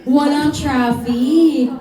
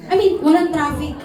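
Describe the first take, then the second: First: "Walang traffic" drawn out slowly, WALANG leaned on; slow stressed echo. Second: Said in the usual way. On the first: Shown as a demonstration. Host repeating the student's answer, slow and emphatic. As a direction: stretch out "Walang traffic" as if amazed.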